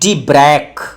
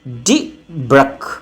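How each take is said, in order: First: The second syllable has a long vowel. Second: The second syllable has a short vowel. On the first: "मैं कभी भी D ब्रैक नहीं पढ़ता हूं" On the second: "D ब्रक, short"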